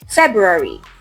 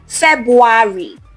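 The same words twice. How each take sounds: First: There is a clear R sound after Feb. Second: There is no R sound after Feb. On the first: The speaker calls it right. "There is a clear R sound after the Feb" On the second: The speaker calls it wrong. "It's not February"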